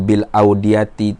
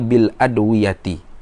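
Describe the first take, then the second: First: The word begins with an 'aud' sound. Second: The word begins with an 'adw' sound. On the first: The speaker calls it wrong. "kalau bil audiyati tu salahlah kitab tu" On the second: The speaker calls it right. "mudah-mudahan yang betulnya bil adwiyati"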